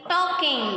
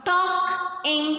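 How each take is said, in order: First: Said in the usual way. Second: "Talk, ing" in two separate beats; divided into syllables. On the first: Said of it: "and joining them". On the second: Shown as a demonstration. Teacher showing two syllables, each part said apart. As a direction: pause between "Talk" and "ing". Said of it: "when we are dividing the word".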